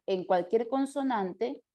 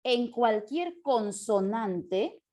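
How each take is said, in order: First: Said in the usual way. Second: Drawn-out, word by word; slow dictation. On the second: Real, not acted. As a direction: stretch it out as if dictating to note-takers. Dicta mientras lo escribe. (dictado lento, alargando las palabras)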